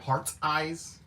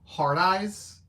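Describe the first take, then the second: First: The T in 'heart' is clearly pronounced. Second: The T in 'heart' is not pronounced. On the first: "But enunciating it, it sounds weird" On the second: "I always say Hard Eyes because I don't pronounce the T's like that"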